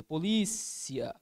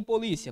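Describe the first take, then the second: First: "Polícia" with the LÍ held long; stressed syllable demo. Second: Said in the usual way. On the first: Shown as a demonstration. Teacher pointing out the tonic syllable, LÍ drawn out in "Polícia". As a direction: slowly stretch the middle of "Polícia", po-LÍ-cia. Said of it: "Na antepenúltima posição". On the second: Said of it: "Olha aqui em polícia".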